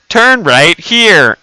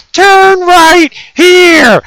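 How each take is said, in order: First: Loud, drawn-out navigation command; mock sat-nav giving firm directions, slowly; imitating GPS voice. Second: High, drawn-out mock scream; very loud, slow falsetto yell; imitating GPS yelling. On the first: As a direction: stretch out the GPS instruction, raised voice. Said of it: "and she's like". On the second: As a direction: shriek the direction like a furious sat-nav. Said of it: "She started yelling at me".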